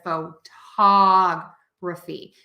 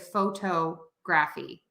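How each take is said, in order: First: The stress is on the second syllable. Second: The stress is not on the second syllable. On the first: The speaker calls it right. "we are going to stress the third to the last syllable" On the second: The speaker calls it wrong. "I hear a lot of people say"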